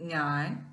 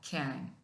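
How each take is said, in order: First: The word begins with an 'ny' sound. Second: The word begins with a 'gy' sound. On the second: "ഖ്യാൻ എന്നും pronounce ചെയ്യുന്നതുണ്ട്"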